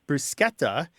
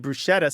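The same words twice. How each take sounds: First: The middle consonant is a k sound. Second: The middle consonant is an sh sound. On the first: The speaker calls it right. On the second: The speaker calls it wrong.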